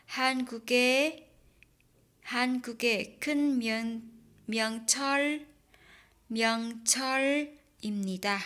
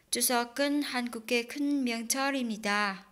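First: Word by word, slow and separate; 한국의 큰 명절입니다 read in separate chunks; slow broken reading. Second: 추석은 한국의 큰 명절입니다 run together smoothly; fast connected 추석은 한국의 큰 명절입니다; linked reading. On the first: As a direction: read it haltingly, syllable by syllable. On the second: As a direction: link 추석은 and 한국의 큰 명절입니다 without breaks. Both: Shown as a demonstration. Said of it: "Đọc nối đó".

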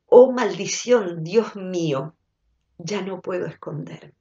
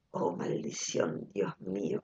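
First: Said in the usual way. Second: Whispered lyric. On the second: Retold or imitated. Quoting a song chorus to listeners, in a whisper. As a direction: whisper the song line like a secret. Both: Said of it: "un estribillo que es tremendo".

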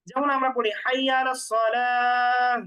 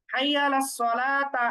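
First: সালাহ with the final round ta turned into h; correct pausal recitation. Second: Slow recitation of সালাতা keeping the full ta sound; সালাতা read with a clear t and final a, the wrong way; wrong pausal reading. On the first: Teacher models the right pausal ending, slow recitation with সালাহ ending in h. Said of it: "হাইয়া আলাস সালাহ কেন বলে". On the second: Teacher shows students the mistaken ending, slow recitation of সালাতা. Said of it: "এরকম বলে না কিন্তু". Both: Shown as a demonstration.

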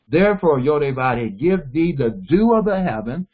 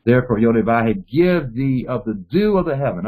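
First: Therefore, Yodevah give thee the dew of the heaven, said slowly with weight on each word; slow it down so the class catches each part of the blessing. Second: Said in the usual way. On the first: Shown as a demonstration. Teacher slowing the blessing so students hear each part. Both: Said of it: "let me slow this down".

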